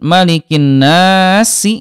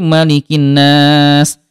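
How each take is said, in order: First: The phrase ends with a short final vowel. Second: The phrase ends on a lengthened, silent consonant. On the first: It is read without stopping. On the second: The reader stops at the end of the verse.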